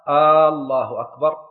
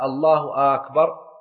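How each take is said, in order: First: The opening hamza of the first word is lengthened. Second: The opening hamza of the second word is lengthened. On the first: It turns the phrase into a question. "لو مد الهمزة في الله" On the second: It asks whether God is greatest or not. "لو مد همزة أكبر"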